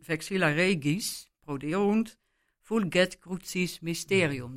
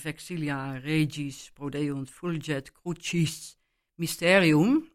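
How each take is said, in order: First: The Latin has sharper, German-style sounds. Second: The Latin has soft, Italian church-style sounds. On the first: "Dus veel scherper en niet met die mooie klanken" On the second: "zoals in het Italiaanse kerklatijn"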